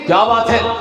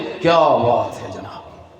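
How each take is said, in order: First: It is said in an angry tone. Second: It is said with envious admiration.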